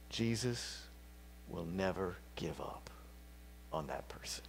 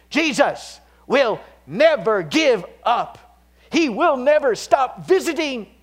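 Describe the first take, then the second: First: Hushed whisper, sinking lower; soft intimate assurance to the grieving; whispered promise. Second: Loud, high and slow proclamation; impassioned pulpit cry; full-force preaching. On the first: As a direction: whisper it like a secret comfort. Sermon comfort for grieving listeners. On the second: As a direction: shout the promise triumphantly. Sermon climax on Jesus. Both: Real, not acted.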